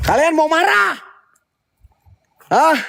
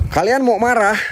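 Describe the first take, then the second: First: Much higher taunting challenge on "marah"; provoking spirits: "Kalian mau marah?" high and sharp. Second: Said in the usual way. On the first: Real, not acted. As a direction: dare them, pitched up high.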